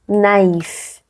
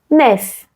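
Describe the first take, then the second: First: The a and i are sounded separately. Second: The a and i merge into one vowel. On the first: "eu mantenho o som do I, porque eu coloquei um trema" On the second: "Se ele não tivesse trema, ele seria nef"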